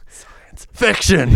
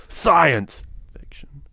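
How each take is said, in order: First: Science held back, FICTION high and loud; stress on fiction. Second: SCIENCE punched loud, fiction dropped to a hush; stress on science. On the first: Saying where it should be, "fiction" shouted high. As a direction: build slowly to a shouted "fiction". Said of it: "where it should be". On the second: Mocking the film's genre balance, "science" loud and "fiction" hushed. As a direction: hit "science" hard, whisper "fiction". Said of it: "this one's kinda like". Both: Shown as a demonstration.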